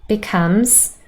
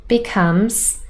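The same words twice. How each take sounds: Both takes have the same delivery.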